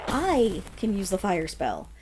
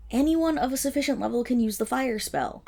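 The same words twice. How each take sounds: First: Slower, with the stress on I; a slow reply that leans on I. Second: Anyone stressed, the rest falling away. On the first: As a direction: put the weight on I to make the point. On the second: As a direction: lean on Anyone dismissively. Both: Acted. Echoes the buyer's boast.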